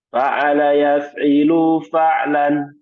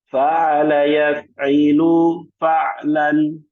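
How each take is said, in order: First: The phrase is recited fast. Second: The phrase is recited slowly. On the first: "lebih cepat lagi" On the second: "Ikuti saya pelan-pelan"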